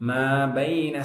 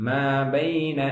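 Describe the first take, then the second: Both takes have the same delivery.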